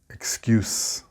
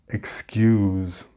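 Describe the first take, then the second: First: The final consonant is a hissing s sound. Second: The final consonant is a buzzing z sound. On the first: It is the noun. "the noun pronunciation has the s sound" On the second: It is the verb. "This is the verb pronunciation with the z sound"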